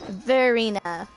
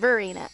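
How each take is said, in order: First: The V sound is drawn out long. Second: The V sound is said quickly and short. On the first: The speaker calls it right. "say the V longer" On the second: The speaker calls it wrong. "Instead of fast, because I was saying Verena"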